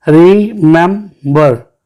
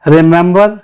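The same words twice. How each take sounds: First: remember slowly as री-मेम-बर; three separate beats on remember; split into syllables. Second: Said in the usual way. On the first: Shown as a demonstration. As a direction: pause between each syllable of remember. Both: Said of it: "remember three syllable है".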